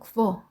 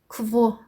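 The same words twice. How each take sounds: First: It is said quickly, sounding almost like 'wo'. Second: It is said slowly, each sound distinct.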